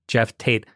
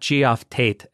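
First: The first name is pronounced exactly like 'Jeff'. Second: The first name is pronounced differently from 'Jeff'. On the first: The speaker calls it right. "It's [name]" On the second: The speaker calls it wrong. "It's not Geoff Tate"

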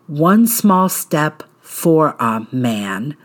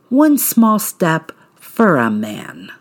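First: "For a" is said as two clear words. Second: "For a" is blended into one word, "furra".

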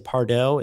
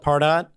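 First: The name is said in a fancy, foreign-sounding way. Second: The name is said plainly, just as spelled. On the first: "It sounds more sophisticated, like Target or Uber" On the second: "it's the easiest way to pronounce it when you read it"

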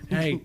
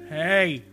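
First: The word is said at a fairly low volume. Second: The word is said noticeably louder. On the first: "someone shouting, hey, 3 times, just increasingly in like volume" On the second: "increasingly in like volume"

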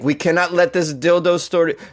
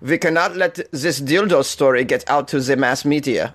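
First: It is said in the speaker's normal accent. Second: It is said in a put-on German accent.

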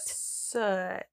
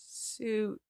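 First: The vowel is not like the one in suit. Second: The vowel is drawn out like in suit. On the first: The speaker calls it right. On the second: The speaker calls it wrong.

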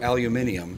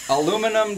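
First: It is said in the British form, aluminium. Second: It is said in the American form, aluminum. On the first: This is the name changed to sound more British. "We're going to change it to aluminium" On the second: This is the name first given to the metal. "Aluminum doesn't sound British enough"

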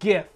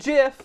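First: It starts with a hard G sound. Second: It starts with a soft J sound. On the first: The speaker calls it right. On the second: The speaker calls it wrong. "Not GIF"

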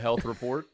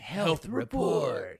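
First: It is said in an ordinary speaking voice. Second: It is said in a special put-on announcer voice. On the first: The speaker calls it wrong. "No, do the voice" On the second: The speaker calls it right. "Do the voice"

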